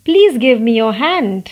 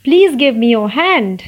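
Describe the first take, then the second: Both takes have the same delivery.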